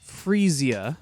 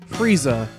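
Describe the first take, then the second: First: The name ends with two syllables after the first. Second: The name ends with one short syllable. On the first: This is how the flower's name is pronounced. The speaker calls it right. "I believe it's pronounced Freesia" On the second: This is a mistaken pronunciation borrowed from a cartoon villain. The speaker calls it wrong. "I have been calling it Frieza, like the Dragon Ball Z villain"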